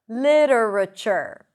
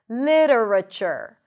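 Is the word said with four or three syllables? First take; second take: four; four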